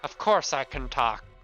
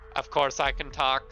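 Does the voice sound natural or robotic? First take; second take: natural; robotic. First: It is said in a non-robotic voice. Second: It is said in a robotic voice.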